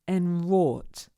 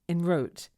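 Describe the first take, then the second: First: The stressed vowel is an or sound. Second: The stressed vowel is not an or sound. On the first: The speaker calls it right. "we have to be careful that we make an or sound" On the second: The speaker calls it wrong. "don't say something like enwrote by mistake"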